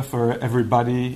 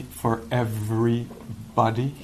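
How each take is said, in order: First: Said in the usual way. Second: "everybody" drawn out slowly as two words, every body; slow right down on "everybody", parting "every" from "body"; split-word emphasis. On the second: Shown as a demonstration. Repeats sign as two words.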